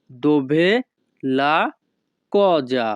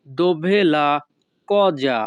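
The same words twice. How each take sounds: First: "Dove", "la", "cosa" said apart with pauses; word by word. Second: Said in the usual way. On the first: Shown as a demonstration. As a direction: split the phrase into separate words.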